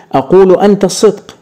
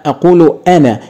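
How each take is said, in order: First: أنت pushed up high and quick as the mistake; mock-wrong أقول أنت الصدق, hitting أنت; wrong version stressed. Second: أنا landed firmly with a falling close; correct version stressed. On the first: Teacher showing the class the wrong pronoun, أنت stressed high. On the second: Teacher correcting the class, أنا stressed with a falling close. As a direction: settle on أنا as the right answer. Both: Shown as a demonstration. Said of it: "ما ينفعش أقول".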